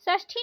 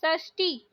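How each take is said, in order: First: षष्ठी with aspirated "thi"; breath puff on t of षष्ठी; wrong pronunciation. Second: षष्ठी with plain "ti"; no puff on t of षष्ठी; corrected pronunciation. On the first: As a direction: say षष्ठी as "sashthi". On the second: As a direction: say षष्ठी as "sashti". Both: Shown as a demonstration. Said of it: "षष्ठी नहीं".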